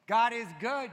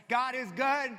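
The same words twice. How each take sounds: First: Loud God is good shout, pitch up. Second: Loud high God is good, congregant style; shout. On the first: Shown as a demonstration. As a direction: show them how to shout it. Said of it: "It might do you good to go". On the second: Retold or imitated. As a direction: answer back like a church member. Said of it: "Maybe somebody will say".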